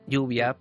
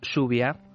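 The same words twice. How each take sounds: First: It is said with a Castilian Spanish accent. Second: It is said with a Rioplatense Spanish accent.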